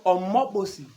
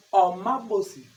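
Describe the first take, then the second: First: "Omo bosi" said with clear o sounds, ɔmɔ bosi; everyday form "Omo bosi", ending bosi with an i; common incorrect form. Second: "Omo bosi" said as ɔma bose, second vowel a and ending e; careful correct "Omo bosi" with a and final e; correct form. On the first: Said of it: "ce qui est grammaticalement pas correct". (prononcez « Omo bosi » avec des o clairs et bosi en i, la forme courante) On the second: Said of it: "Normalement, il faut dire". (prononcez « Omo bosi » comme ɔma bose, la forme correcte) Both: Shown as a demonstration.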